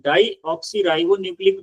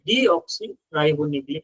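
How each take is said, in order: First: The first syllable sounds like 'die'. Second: The first syllable sounds like 'dee'. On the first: "या तो डाई oxy ribonucleic भी acid बोलते हैं" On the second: "या फिर डी oxy ribonucleic acid बोला जाता है"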